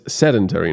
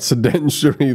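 First: The word has no extra 'i' vowel sound. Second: The word has an extra 'i' vowel sound. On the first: The speaker calls it right. "So it's sedentary" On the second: The speaker calls it wrong. "not sedentary. There's no I in there"

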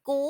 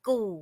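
First: The syllable is said with a high tone. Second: The syllable is said with a low tone. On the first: "กูไม่ตี" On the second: "กูไม่เอก"

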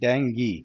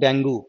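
First: The word ends with an 'ee' vowel. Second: The word ends with an 'oo' vowel. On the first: The speaker calls it right. "डेंगी, not डेंगू" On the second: The speaker calls it wrong. "Not डेंगू"

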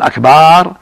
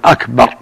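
First: The vowel after the b is drawn long. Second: The vowel after the b is short. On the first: It means drums, the plural of drum. The speaker calls it wrong. "أما إذا قال أكبر هذا جمع كبر" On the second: It means greater. The speaker calls it right. "يقول أكبر يعني أعظم"

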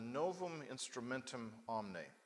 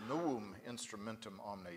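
First: The v in Novum sounds like English v. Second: The v in Novum sounds like English w. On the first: The speaker calls it wrong. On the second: The speaker calls it right.

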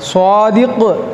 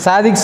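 First: The first consonant has a w-like glide. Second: The first consonant is a plain s sound. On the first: The speaker calls it right. "சுவாதிக்கு அப்படின்னா தான் உண்மையாளர்னு அர்த்தம்" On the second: The speaker calls it wrong. "சாதிக்குன்னு கூப்பிட்றோம்ல, அதே முதல்ல தப்பு"

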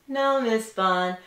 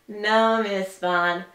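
No difference in how they are said.

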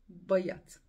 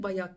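First: The first vowel is a schwa-like sound. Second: The first vowel is a plain open 'a'. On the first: The speaker calls it right. "bakın buradaki ı a diye okunmuyor" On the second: The speaker calls it wrong. "Ben niye bayat diyorum ya"

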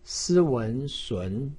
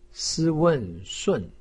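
First: The pitch rises from mid to high. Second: The pitch falls sharply from high. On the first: "二声" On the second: "四声"

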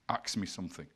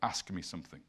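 First: The consonants are swapped, sounding like 'aks'. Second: The consonants are in order, sounding like 'ask'. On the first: "a Caribbean gentleman might say" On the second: "instead of"

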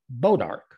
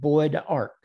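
First: The first syllable sounds like 'bo'. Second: The first syllable sounds like 'boyd'. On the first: "everybody in the Ozark calls it Bodark" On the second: "a little town not far from here called Boyd Ark"

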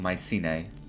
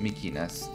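First: The name is said with English sounds. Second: The name is said with Greek sounds.

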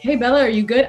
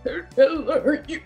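First: It is said in a normal, clear voice. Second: It is said in a choked, struggling voice.

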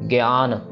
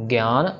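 The two takes are said the same way.

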